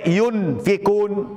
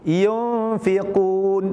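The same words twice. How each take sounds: First: The n is pronounced fully and clearly. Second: The n is hidden with a nasal hum. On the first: The speaker calls it wrong. "Tidak boleh jadi idhar" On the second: The speaker calls it right. "Dibaca samar-samar"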